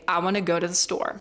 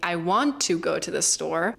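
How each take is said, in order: First: The sounds are reduced and joined together. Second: Each word is said fully and separately. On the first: "reduce sounds and that you join them together" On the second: "Instead of saying"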